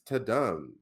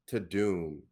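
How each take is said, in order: First: The second syllable sounds like dumb. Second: The second syllable sounds like doom. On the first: The speaker calls it right. "but I think it's to dumb" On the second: The speaker calls it wrong. "all the celebrities who were promoting it were pronouncing it to doom"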